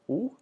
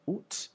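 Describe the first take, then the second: First: It ends in a vowel with no T. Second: It ends with a clearly pronounced T. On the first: This is the common everyday form. "you sort of sound like an owl a little bit" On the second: This sounds formal or old-fashioned. "oot with the final T"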